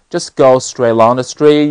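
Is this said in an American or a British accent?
American. It has an American accent with smoother flow. "那么美音就不一样了"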